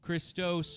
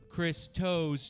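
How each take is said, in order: First: The name runs together as one word. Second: The name is split into two separate words. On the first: The speaker calls it wrong. "one word" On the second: The speaker calls it right.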